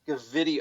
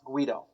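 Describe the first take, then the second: First: The name is read out with four syllables. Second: The name is said with two syllables. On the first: It is read the way the spelling looks. The speaker calls it wrong. "spelled like G V I D O, like Gavidio" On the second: It is the name's actual pronunciation. The speaker calls it right. "it's Guido, turns out"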